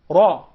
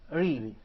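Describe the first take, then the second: First: The r sounds heavy and deep. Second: The r sounds light and soft. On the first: "versus ra" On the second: "very delicate, very soft"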